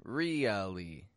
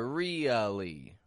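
First: The first vowel is a long, forced ee sound. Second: The first vowel is a long, forced ee sound.

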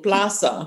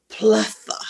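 First: The z is said like an s. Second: The z is said like a th. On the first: This is the everyday local way of speaking. "instead of saying plaza" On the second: The speaker puts on a formal Castilian style for official occasions. "sound very Spanish"

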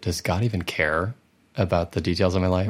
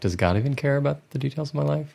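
First: The question sounds charged and frustrated. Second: The question sounds open and curious. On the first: The asker doubts God cares and feels upset. "is it" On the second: The asker genuinely wonders about it. "Or is it more curious"

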